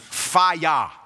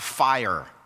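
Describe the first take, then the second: First: The word is stretched into two syllables, fi-yah. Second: The word is said plainly as one syllable. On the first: The speaker calls it right. "It's fire. F-I-Y-A-H" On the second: The speaker calls it wrong. "it's not fire"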